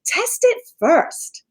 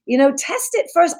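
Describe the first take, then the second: First: "Test it first" slow, stress on "it"; quoted advice. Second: Said in the usual way. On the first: Retold or imitated. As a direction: say "Test it first" slowly, leaning on "it". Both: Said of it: "the idea that you said".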